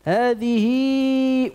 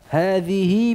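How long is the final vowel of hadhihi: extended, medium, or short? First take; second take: extended; medium. First: The final vowel is lengthened well beyond two counts. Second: The final vowel is lengthened about two counts. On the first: "dalam keadaan wasal dibaca dengan silah kubra" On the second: "Dibaca dalam keadaan wasal dengan silah sughra"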